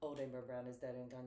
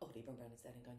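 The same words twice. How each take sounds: First: The line is recited at a slower pace. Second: The line is recited at a faster pace.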